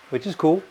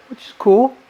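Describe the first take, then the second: First: Said in the usual way. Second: "which is cool" jumped high and loud with a rising end; high sarcastic which is cool. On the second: Shown as a demonstration. Wine-drinking friend teased with a high sing-song.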